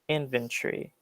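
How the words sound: It is spoken in a British accent.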